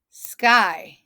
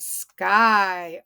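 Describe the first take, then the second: First: SKY in one loud beat; snapped short. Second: SKY held long on the vowel; drawn out. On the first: Teacher snapping syllables with class, SKY short and punchy. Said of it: "Snap it with me". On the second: Teacher introducing the word to class, SKY drawn out. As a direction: sound out SKY slowly. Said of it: "Yep, it's short". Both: Shown as a demonstration.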